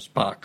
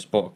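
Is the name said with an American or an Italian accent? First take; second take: American; Italian. First: The name is said with an American pronunciation. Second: The name is said with an Italian pronunciation. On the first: "gli americani lo pronunciano Spock, ma è un qualcosa di inascoltabile" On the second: "noto a tutti come Spock"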